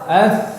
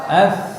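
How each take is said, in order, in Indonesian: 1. Konsonan itu bunyi "th" yang lembut dan berhembus. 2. Konsonan itu bunyi "th" yang lembut dan berhembus.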